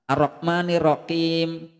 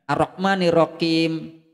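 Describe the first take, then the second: No difference in how they are said.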